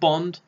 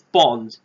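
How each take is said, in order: First: The vowel is said the American way. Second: The vowel is said the British way. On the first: The speaker calls it wrong. "it's kind of like American accent Bond" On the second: The speaker calls it right. "come on, it's Bond"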